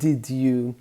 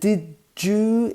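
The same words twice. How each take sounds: First: The d and y sounds stay separate. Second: The d and y blend into a j sound. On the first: "instead of" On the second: "two sounds blend together"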